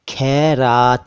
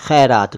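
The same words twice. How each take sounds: First: It begins with an aspirated stop kh. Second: It begins with a throaty fricative kh. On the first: The speaker calls it wrong. "खैरात नहीं है" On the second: The speaker calls it right. "ख के नीचे नुक्ता"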